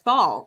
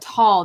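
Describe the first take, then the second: First: The syllable starts with a 'th' sound. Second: The syllable starts with a plain 't' sound. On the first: "I pronounce it as thal" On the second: "the H is silent"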